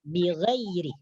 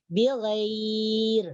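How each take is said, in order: First: The word ends with a short vowel after r. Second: The word stops on the r sound. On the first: The reading continues into the next word. "tapi ini di sini tidak diwakaf" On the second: The reader stops here, for example to breathe. "boleh kita wakaf bighair"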